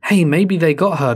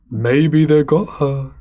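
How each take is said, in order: First: Said at normal speed, slightly raised; sudden suggestion. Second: Slow, emphatic repetition; drawn-out repeat. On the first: Ryan guessing who took her, sudden suggestion. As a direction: toss it out as a new idea. Ryan's first suggestion in dialogue. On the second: Ryan repeating his guess about the kids, slow and emphatic. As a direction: stretch each word out for effect. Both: Acted.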